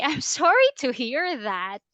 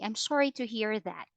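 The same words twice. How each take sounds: First: It sounds sarcastic and insulting, without sympathy. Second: It sounds sincere and sympathetic. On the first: The speaker does not really feel sorry. The speaker calls it wrong. "You don't say, ... It might look as that you are being sarcastic" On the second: The speaker genuinely feels sympathy. The speaker calls it right. "Say it sincerely"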